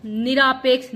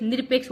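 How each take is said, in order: First: Long aa in the middle of निरापेक्ष; wrong form. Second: Short vowel after र in निरपेक्ष; correct form. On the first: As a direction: say निरापेक्ष with a stretched आ after र. (गलत उच्चारण, निरापेक्ष में लंबा आ) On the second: (सही उच्चारण, निरपेक्ष में छोटा अ) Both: Shown as a demonstration. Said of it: "निरपेक्ष होता है".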